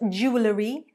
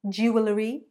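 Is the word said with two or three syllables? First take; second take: three; three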